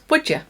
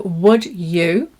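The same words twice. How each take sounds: First: The two words are joined into one. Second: The two words are said separately.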